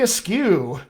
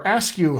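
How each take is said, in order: First: Askew as uh-SKEW, second syllable stressed; unsure name pronunciation. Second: Askew as ASK-you, first syllable stressed; alternative name pronunciation. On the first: Coach reading out a viewer's name, unsure pronunciation. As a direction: slowly say "Askew" with weight on SKEW. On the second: Coach offering another guess at the name, alternative pronunciation. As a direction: say "Askew" starting on a clear ASK. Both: Real, not acted. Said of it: "hopefully I'm saying that right".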